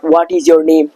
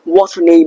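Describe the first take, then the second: First: 'What is' is said as two full words. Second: 'What is' is squeezed into one syllable. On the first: The speaker calls it wrong. "leave speaking that what is your name" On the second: The speaker calls it right. "Try to pronounce what's your name"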